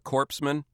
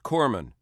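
First: The word is said with the s sound. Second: The word is said without the s sound. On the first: The speaker calls it wrong. "it's not very good for a guy delivering first aid to be called a corpseman" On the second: The speaker calls it right. "It is Corman. You don't pronounce the S"

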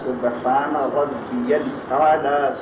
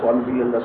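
First: The phrase is said slowly and calmly. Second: The phrase is said quickly and rushed. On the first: The speaker calls it right. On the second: The speaker calls it wrong.

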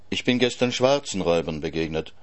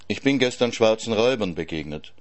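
First: The stress is on the word schwarzen. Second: The stress is on the word Räubern.

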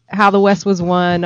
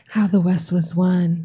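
First: It is said in a normal speaking voice. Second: It is said in a put-on seductive voice.

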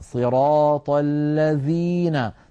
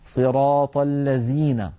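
First: The second word has a clear dh sound. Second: The second word has a z sound instead. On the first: The speaker calls it right. "لا بد من الضغط عليها والبيان" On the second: The speaker calls it wrong. "بحرف الزاي"

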